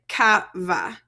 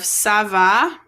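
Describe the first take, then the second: First: The first word begins with a hard K sound. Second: The first word begins with a soft S sound. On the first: The speaker calls it wrong. "if I don't put my C-D on the bottom there, it sounds like ca va" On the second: The speaker calls it right. "makes things sound like an S, like a soft sound"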